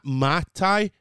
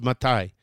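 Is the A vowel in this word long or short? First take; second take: long; short. First: The A vowel is drawn out long. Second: The A vowel is quick and short. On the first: The speaker calls it wrong. "It's not matai" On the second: The speaker calls it right. "It's quick. It's a quick A"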